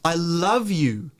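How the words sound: The stress falls on the word I. It is me who loves you, not someone else. "it's about me loving you, not someone else"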